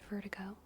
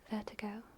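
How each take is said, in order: First: It is said in an American accent. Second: It is said in a British accent. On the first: "in American English is vertigo" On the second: "In British English"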